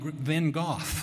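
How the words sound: The name is said in a British way. "In Britain, they call him Van Gogh"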